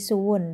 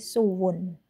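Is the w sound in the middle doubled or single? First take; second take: single; doubled. First: The middle w sound is short and single. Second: The middle w sound is doubled and held. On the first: "dinaql menjadi suwun" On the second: "ditasydid menjadi suwun"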